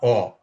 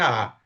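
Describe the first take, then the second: First: The vowel is a rounded 'oh' sound. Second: The vowel is an open 'ah' sound. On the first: The letter carries no accent mark. "Se fosse sem acento, era O" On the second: The letter carries an accent mark. "o A inicial tem acento, então é A"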